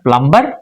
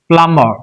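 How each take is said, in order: First: The B sound is pronounced after the M. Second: The B sound is silent after the M. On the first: The speaker calls it wrong. "it is not plumber, very conveniently we say" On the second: The speaker calls it right. "So it is silent"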